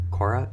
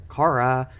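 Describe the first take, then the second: First: Cora with an OR vowel, questioning; misheard name. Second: Cara with an open AH, higher and louder; corrected name. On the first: New colleague checking the student's name, misheard name. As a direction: ask Cora, rhyming with Nora. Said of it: "That's not her name". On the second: New colleague repeating the name back, corrected name. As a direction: say Cara as CAR-uh. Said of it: "Her name's Cara". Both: Retold or imitated.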